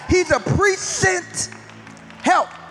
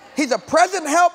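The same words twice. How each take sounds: First: The word present is broken into two separate parts. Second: The word present is said as one smooth unit. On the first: He is a helper sent ahead beforehand. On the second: He is a helper who is here now.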